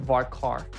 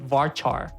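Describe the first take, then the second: First: The second syllable sounds like 'car'. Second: The second syllable sounds like 'char'. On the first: The speaker calls it right. "I usually pronounce it varchar because it's character" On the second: The speaker calls it wrong. "Some people pronounce it varchar, which I don't understand"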